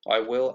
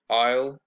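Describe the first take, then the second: First: The two words are said fully and separately. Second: The two words are contracted into one syllable.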